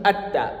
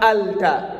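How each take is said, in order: First: The L merges into a doubled T sound. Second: The L sound is clearly pronounced before the T. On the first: The speaker calls it right. "on dit atta" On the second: The speaker calls it wrong. "on dit pas alta"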